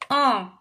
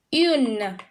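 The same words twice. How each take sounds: First: Un nasal, no N sound; Un said as a short nasal vowel; French un. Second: Une with a rounded u and a clear N at the end; French une. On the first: Teacher contrasting un with une, nasal vowel. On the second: Teacher contrasting une with un, clear final N. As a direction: Une ends on a sounded N. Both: Shown as a demonstration. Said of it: "So this is how it's read".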